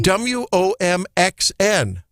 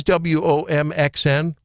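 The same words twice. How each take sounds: First: W O M X N spelled slowly, letter by letter; slow, separate letters on W O M X N; spelling it out. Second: Said in the usual way. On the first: Shown as a demonstration. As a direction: spell W O M X N at half speed for a listener. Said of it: "Spell that again".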